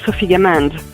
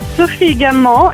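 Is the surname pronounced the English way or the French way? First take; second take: English; French. First: The surname is pronounced with English sounds. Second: The surname is pronounced with French sounds. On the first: "but you can call me" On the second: "is the French pronunciation"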